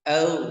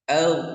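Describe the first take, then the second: No difference in how they are said.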